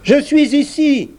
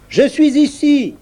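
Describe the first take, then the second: First: Small high piping voice. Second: High voice. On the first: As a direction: pipe it up high and thin. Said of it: "une voix dit". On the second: Salive voice repeated. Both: A narrator's reading.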